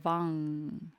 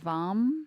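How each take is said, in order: First: The word ends with an open NG sound. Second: The word ends with closed lips on M. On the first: "pronounced like V A N G or V U N G" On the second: "by closing the lips with an M"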